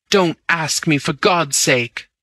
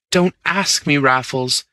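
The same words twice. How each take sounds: First: Pleading. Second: Higher, begging appeal; pleading. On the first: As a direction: drag out the plea as it falls back. Bunny begs Raffles to stop. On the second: Bunny begging Raffles not to ask again: higher pleading. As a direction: plead with him, a pitch up. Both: Acted.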